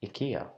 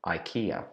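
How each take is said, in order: First: Ikea said as ih-KAY-uh; Swedish ikea. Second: Ikea said as EYE-kee-uh, English style; old English habit: ikea as EYE-kee-ah; wrong English ikea. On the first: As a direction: ikea with a short ih and stress on KAY. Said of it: "we should pronounce it ikea". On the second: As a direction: ikea with a long EYE start. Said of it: "I have known this brand as". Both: Shown as a demonstration.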